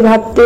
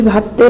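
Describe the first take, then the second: No difference in how they are said.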